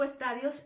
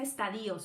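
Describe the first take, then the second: First: The stress falls on the syllable ta. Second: The stress falls on the syllable di. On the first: "Yo les digo estadios sin acento" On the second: "mucha gente dice estadios"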